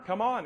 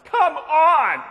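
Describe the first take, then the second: First: Mildly impatient grumble, held back; mock huffy impatience. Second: Loud, high exasperated shout; yelling. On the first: Shopper waiting in the checkout line, mildly huffy. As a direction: imitate a huffy customer without raising the voice. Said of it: "she's just huffing and puffing like". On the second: Retold or imitated. Shopper holding cleaning supplies at price check, exasperated yell. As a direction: yell it out as an impatient customer. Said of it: "just yells".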